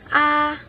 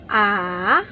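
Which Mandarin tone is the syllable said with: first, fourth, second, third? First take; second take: first; third. First: It is said with the high first tone. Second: It is said with the third tone. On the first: "First tone, or 第一声 A" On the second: "第第第三声 third tone A"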